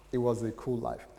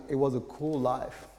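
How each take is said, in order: Both takes have the same delivery.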